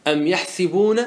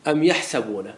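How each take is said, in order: First: يحسبون with an i vowel on the seen; kasra reading. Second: يحسبون with an a vowel on the seen; fatha reading. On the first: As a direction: say يحسبون as "yahsibun", short i after the s. (يحسبون بكسر السين) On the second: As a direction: say يحسبون as "yahsabun", short a after the s. (يحسبون بفتح السين) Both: Shown as a demonstration. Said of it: "وقد قرئ في القرآن الكريم بالقراءتين".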